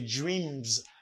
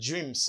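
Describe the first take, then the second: First: The final sound is a buzzing z. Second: The final sound is a hissing s. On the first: The speaker calls it right. "You hear this M. You say dreams" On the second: The speaker calls it wrong. "not dreams"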